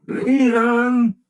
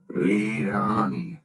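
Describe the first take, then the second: First: Crying out. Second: Said in the usual way. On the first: Acted. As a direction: lead on shouted high and loud. Scrooge repeats, crying out.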